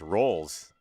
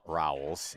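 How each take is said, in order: First: The name is said with one syllable. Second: The name is said with two syllables. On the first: The speaker calls it right. "it's Rolls" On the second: The speaker calls it wrong. "It's not Rowells"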